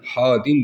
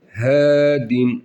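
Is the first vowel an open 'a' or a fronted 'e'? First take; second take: open a; fronted e. First: The first vowel is an open 'a' sound. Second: The first vowel is a fronted 'e' sound. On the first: The speaker calls it wrong. "hadin demiyoruz" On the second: The speaker calls it right. "H harfi de ince bir harf olduğu için hedin"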